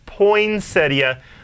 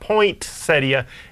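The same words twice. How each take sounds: First: No T sound is heard in the word. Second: A T sound is heard in the word. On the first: The speaker calls it right. "There's no T" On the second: The speaker calls it wrong. "It's not poinsettia"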